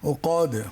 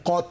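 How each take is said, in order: First: The word ends with a d sound. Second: The word ends with a t sound. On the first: The speaker calls it right. "দাল দিয়ে" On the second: The speaker calls it wrong. "ত দিয়ে না, উকাত নয়"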